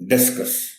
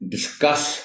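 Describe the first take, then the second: First: The stress is on the first syllable. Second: The stress is on the second syllable. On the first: It names a thrown disc in a sport. The speaker calls it wrong. "डी पर stress के साथ" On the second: It means to talk something over. The speaker calls it right. "सी पर stress के साथ"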